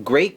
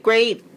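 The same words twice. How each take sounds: First: Said in the usual way. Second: Great repeated much higher, stressed; emphatic great. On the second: Real, not acted. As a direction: hit great again, higher and punchier.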